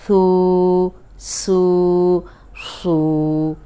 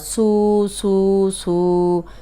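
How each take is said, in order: First: The s sound is heavy and full. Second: The s sound is light and thin. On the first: The speaker calls it right. "ये मोटा है और सीटी वाला भी है" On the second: The speaker calls it wrong. "इसको हमने ऐसे नहीं पढ़ना"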